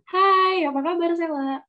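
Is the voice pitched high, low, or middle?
high. The voice is pitched high.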